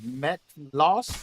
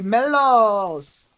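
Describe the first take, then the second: First: The name begins with a clear 'Met' sound. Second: The name begins with 'Mel', with no 't' sound.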